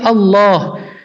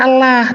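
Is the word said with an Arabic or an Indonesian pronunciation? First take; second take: Arabic; Indonesian. First: It is said with an Arabic pronunciation. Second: It is said with an Indonesian pronunciation. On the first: The speaker calls it right. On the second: The speaker calls it wrong. "Allah ini kan cuma Indonesia yang baca Allah"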